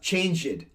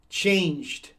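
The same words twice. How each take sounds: First: The ending is said as an extra syllable. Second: The ending adds only a d sound. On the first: The speaker calls it wrong. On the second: The speaker calls it right.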